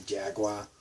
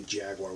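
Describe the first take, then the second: First: Jaguar ending in "wah", Boston accent. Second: Jaguar with a sounded final r; non-Boston pronunciation. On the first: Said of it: "we say Jaguar". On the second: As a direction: say Jaguar in standard American. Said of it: "We don't say Jaguar". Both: Shown as a demonstration.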